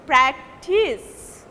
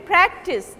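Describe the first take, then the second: First: "practice" slowly, with the second syllable drawn out and stressed. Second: "practice" with the first syllable stressed; noun stress. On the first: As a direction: stretch and push the end syllable of "practice". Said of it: "second syllable is taking prominence". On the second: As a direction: hit the first syllable of "practice", keep the second short. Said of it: "this means this is noun". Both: Shown as a demonstration.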